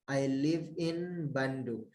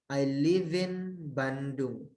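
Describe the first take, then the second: The two takes are said the same way.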